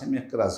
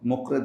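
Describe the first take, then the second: First: The name is said as Mikraz. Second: The name is said as Mukred. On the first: The speaker calls it right. "মিকরাজ হবে নামটা" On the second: The speaker calls it wrong. "এখানে বইয়ে মুকরেদ লেখা আছে"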